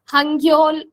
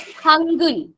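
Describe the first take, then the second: First: The second syllable is said as 'gyol'. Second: The second syllable is said as 'gul'. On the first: The speaker calls it wrong. "you don't pronounce it as Hangul or uh, Hangyol, nothing like this" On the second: The speaker calls it right. "It is Hangul"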